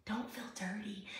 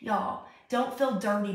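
First: "Don't feel dirty" breathed as a soft unvoiced whisper; tender whispered reassurance. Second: Said in the usual way. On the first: Shown as a demonstration. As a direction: drop to a hushed whisper on "dirty". Pastor comforting viewers.

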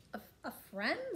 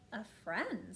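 First: Higher, stammered query from a surprised queen; storybook queen. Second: Puzzled king, at the reader's own pitch; storybook king. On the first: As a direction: echo it higher, as a puzzled queen. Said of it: "said the queen". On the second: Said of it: "said the king". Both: A narrator's reading.

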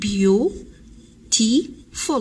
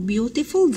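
First: "beautiful" drawn out slowly in three separate parts; broken into syllables. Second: Said in the usual way. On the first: Shown as a demonstration. Teacher counting syllables for pupils, "beautiful" broken slowly into three. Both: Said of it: "هذه فيها three syllables".

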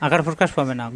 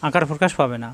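Both takes have the same delivery.

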